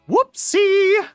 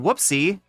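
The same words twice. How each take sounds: First: It is said in a high falsetto voice. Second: It is said in a normal speaking voice. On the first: This is an implausible way for the person to say it. "with the falsetto and everything" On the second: This is how the person might plausibly say it. "I can imagine him saying"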